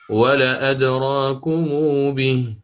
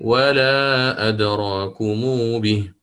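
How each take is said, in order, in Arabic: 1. الصوت الذي بعد أول 'l' قصير. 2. الصوت الذي بعد أول 'l' طويل. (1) "على الإثبات" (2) "والثاني على النفي"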